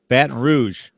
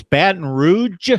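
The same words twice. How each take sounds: First: "Rouge" with a soft French "zh" ending. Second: "Rouge" with a hard j ending, like "roodge". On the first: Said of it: "I say Rouge". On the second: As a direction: say "Rouge" slowly, ending in a heavy "dge". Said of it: "uh, examples". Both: Shown as a demonstration.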